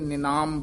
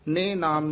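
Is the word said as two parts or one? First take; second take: one; two parts. First: It is said joined as one word. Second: It is split into two separate parts. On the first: The speaker calls it right. "ਬੋਲਣਾ ਇਕੱਠਾ ਹੀ" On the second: The speaker calls it wrong. "ਨਹੀਂ ਕਹਿਣਾ"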